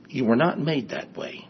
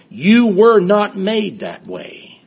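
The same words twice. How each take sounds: First: "you were not made that way" said softly at normal pitch; softened repeat. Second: YOU WERE NOT MADE drawn out slowly on a high pitch; emphatic declaration. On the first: Preacher repeating the point to the congregation, softly. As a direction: let "you were not made that way" drop soft and sink in. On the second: Preacher correcting an excuse, emphatic and slow. Preacher drives home a point. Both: Real, not acted.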